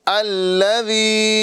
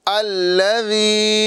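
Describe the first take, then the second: No difference in how they are said.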